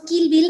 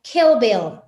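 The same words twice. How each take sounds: First: "Kill Bill" with a pure Spanish I. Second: "Kill Bill" with the I between I and E; "Kill Bill" in English. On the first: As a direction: say "Kill Bill" the Mexican way, with a tight ee sound. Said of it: "Nosotros decimos Kill Bill en español". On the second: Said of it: "la pronunciación correcta sería Kill Bill". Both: Shown as a demonstration.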